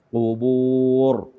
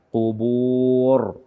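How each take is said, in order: The two takes are said the same way.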